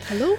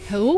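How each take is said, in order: First: French-accented hello with the H dropped. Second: Said in the usual way. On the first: Shown as a demonstration. Showing her friend how the French say it, French accent. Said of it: "I do like French accent". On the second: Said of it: "No, no, wait".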